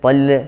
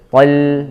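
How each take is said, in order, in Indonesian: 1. L memantul dengan dilepas. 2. L ditahan tanpa memantul. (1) "jangan tol tol" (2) "lam jangan sampai memantul"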